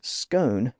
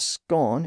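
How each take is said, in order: First: It uses the pronunciation common outside Scotland. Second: It uses the pronunciation common in Scotland. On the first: "whereas scone becomes" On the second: "is still more common in Scotland and northern England"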